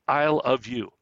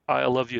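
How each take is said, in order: First: It is said slowly, word by word. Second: It is said fast, words run together.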